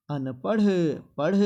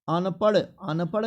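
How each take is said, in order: First: अनपढ़ ending in breathed ṛh; "anpaṛh" for अनपढ़, h audible; correct pronunciation. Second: अनपढ़ ending in hard unbreathed ḍ; no puff of air closing अनपढ़; higher "anpaḍ" for अनपढ़; wrong pronunciation. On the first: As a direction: let air out on the end of अनपढ़. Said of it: "ये ढ होता है". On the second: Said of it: "अनपढ़ नहीं होता है". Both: Shown as a demonstration.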